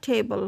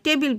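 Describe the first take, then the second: First: The word is said with an English pronunciation. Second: The word is said with a Bangladeshi pronunciation. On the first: The speaker calls it right. "কিন্তু আসলে এটা হচ্ছে টেবল" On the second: The speaker calls it wrong. "বাংলাদেশে উচ্চারণে"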